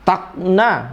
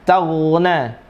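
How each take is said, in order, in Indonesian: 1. Konsonan tengahnya terdengar seperti hentian glotal. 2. Konsonan tengahnya adalah frikatif gh yang halus. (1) "Seolah-olah malah hamzah" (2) "Bukan tagna atau tagna"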